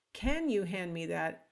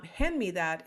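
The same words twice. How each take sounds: First: CAN stressed and raised at the start; indirect request. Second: Plain, direct command; direct statement. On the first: Teacher showing an indirect request, stress on CAN. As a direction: lean on "can" as if asking about ability. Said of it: "is asking two questions". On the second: Teacher showing students a direct request, matter-of-fact. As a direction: state it as a straight order. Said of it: "is a statement that's direct". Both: Shown as a demonstration.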